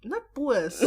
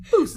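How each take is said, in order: First: "boost" broken into two vowels, boo-uhs; mispronounced boost. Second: "boost" as one straight vowel, poos; straight vowel sound. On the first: Retold or imitated. Friend mocking a learner's accent attempt, "boost" as boo-uhs. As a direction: imitate the wrong "boost" with a gliding oo-uh. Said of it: "It's the O E. It's a straight sound". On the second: Shown as a demonstration. Friend coaching the Cape Town accent, "boost" straight as poos. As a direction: say "boost" with a pure, unglided oo. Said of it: "It's a straight sound".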